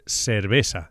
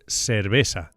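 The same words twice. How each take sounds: First: The c and z sound like English s. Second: The same.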